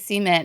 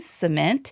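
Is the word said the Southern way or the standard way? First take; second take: Southern; standard. First: It is said the Southern North Carolina way. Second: It is said the standard, non-Southern way.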